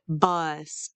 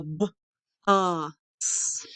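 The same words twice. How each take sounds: First: Said in the usual way. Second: B, uh, s with pauses between; sounded out. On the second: Shown as a demonstration. Teacher breaks down bus, b, uh, s in parts. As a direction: isolate each sound of bus: b, uh, s. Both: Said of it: "Do you hear the eh sound".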